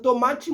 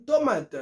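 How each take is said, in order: First: "tomati" with a final "chee" syllable; "tomati" as "to-MA-chi"; Brazilian Portuguese word. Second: "tomat" ending on a hard T; "tomat" as "to-MAT"; Creole word. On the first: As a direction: say "tomati" the Brazilian way, sounding the last vowel. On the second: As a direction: say "tomat" the Creole way, with no final vowel. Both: Shown as a demonstration. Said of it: "moun nan di tomat".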